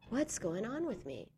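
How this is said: The tone is curious and caring. It seeks understanding of oneself. The speaker calls it right. "with real curiosity and care"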